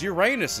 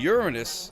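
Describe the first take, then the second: First: It sounds like the phrase 'your anus'. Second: It begins with a sound like 'urine'. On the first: It is said to be funny. "Uranus is hilarious" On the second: It is only a little funny. "it sounds like you're saying urine"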